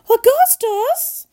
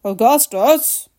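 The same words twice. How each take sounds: First: High, drawn-out wail of a call; mother calling shrilly; crying out. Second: Restrained fatherly cry. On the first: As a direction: cry it high and long. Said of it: "cried Missus Gloop". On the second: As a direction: call it slowly in your own pitch. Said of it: "cried Mister Gloop". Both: A narrator's reading.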